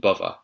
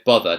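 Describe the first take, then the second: First: The middle consonant is a v sound. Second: The middle consonant is a th sound.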